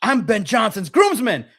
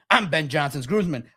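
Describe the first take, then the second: First: Louder, higher, slow insistent groomsman claim; drilling "groomsman" into the interviewers; mock shouting. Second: Said in the usual way. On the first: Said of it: "should have screamed Ben Johnson's name". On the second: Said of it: "should have screamed".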